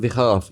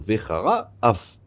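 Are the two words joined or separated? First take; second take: joined; separated. First: The two words run together without a break. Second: The two words are kept apart with a break. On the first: The speaker calls it wrong. "il ne faut pas dire Vecharaf" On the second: The speaker calls it right. "il faut dire Vechara Af"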